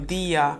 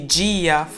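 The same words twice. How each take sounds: First: The d is a plain, hard d. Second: The d is soft, like 'dj'. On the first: "não tem esse é, D e T chiado" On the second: "ao invés de"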